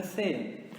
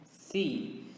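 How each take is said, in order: First: C said as "seh"; Portuguese letter C. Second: C said as a long "see"; English letter C. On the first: Teacher naming the letter in Portuguese first, C as "seh". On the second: Teacher answering with the English letter, C as "see". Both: Shown as a demonstration. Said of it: "in English is going to be".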